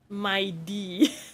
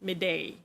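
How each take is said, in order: First: The first syllable sounds like 'my'. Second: The first syllable sounds like 'mid'. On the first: "in the game... it is pronounced as my D" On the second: "I pronounce his name as Midday"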